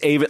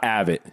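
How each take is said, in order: First: The first syllable rhymes with shave. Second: The first syllable does not rhyme with shave. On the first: The speaker calls it right. "It's Avett like Shave It" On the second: The speaker calls it wrong. "not Avett"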